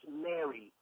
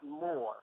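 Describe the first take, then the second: First: It has two syllables, sounding like Mary. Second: It has one syllable, sounding like more. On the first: The speaker calls it right. "M R is pronounced Mary" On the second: The speaker calls it wrong. "not more"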